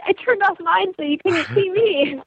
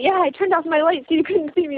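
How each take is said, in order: First: Higher, slower teasing retort; playful comeback. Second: Said in the usual way. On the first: Retold or imitated. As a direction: toss it back at him with a grin. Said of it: "And I was like". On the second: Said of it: "Wade telling me".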